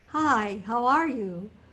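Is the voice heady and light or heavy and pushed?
heady. The voice is light and heady.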